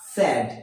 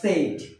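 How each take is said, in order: First: The vowel is a short, open 'e'. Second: The vowel is a long gliding 'ay'. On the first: The speaker calls it right. "আসলে এর উচ্চারণ হবে স্যাড" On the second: The speaker calls it wrong. "Not সেইড"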